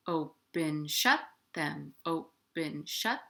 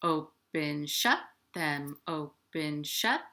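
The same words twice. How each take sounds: The two takes are said the same way.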